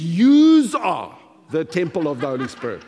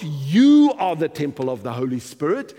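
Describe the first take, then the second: First: "Yous" punched loud and long, with a z on the end; "Yous" stretched out in a big, loud voice; stress on plural YOUS. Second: "you" stressed, then the rest falling away; singular "you". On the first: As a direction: hammer "Yous" as the correction, then drop away. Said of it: "It says". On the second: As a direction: hit "you" hard as the word being rejected. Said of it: "it's not". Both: Shown as a demonstration.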